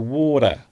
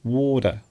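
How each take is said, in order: First: The middle consonant sounds like a soft D. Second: The middle consonant sounds like a soft D.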